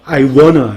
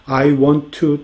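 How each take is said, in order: First: Want to is reduced to wanna. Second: Want to is said slowly and in full. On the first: Tries to imitate how Americans talk. The speaker calls it wrong. "미국인들처럼 어, I wanna 이렇게" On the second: Speaks plainly and clearly to get the point across. The speaker calls it right. "이것도 천천히 말합니다. 빨리 말하지도 않아요. 이렇게"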